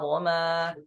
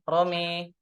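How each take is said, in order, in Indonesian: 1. Vokal setelah m adalah a terbuka. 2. Vokal setelah m condong ke e. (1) "Itu di riwayat Hafs an Asim" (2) "Itu dengan memiringkan bunyi fathah"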